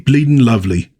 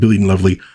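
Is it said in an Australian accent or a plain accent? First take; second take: Australian; plain. First: It is said in a put-on Australian accent. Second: It is said in the speaker's normal accent. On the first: "that's supposed to be an Australian accent" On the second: "screw it. I'm just going to say"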